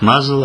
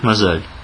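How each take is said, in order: First: The word has the European and American pronunciation. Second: The word has the local pronunciation. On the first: "В Европе, в Америке говорят «мазал»" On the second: "а здесь говорят «мазаль»"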